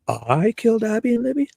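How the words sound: The voice rises at the end, doubtfully.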